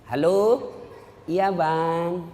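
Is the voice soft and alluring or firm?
soft. It is said softly and alluringly.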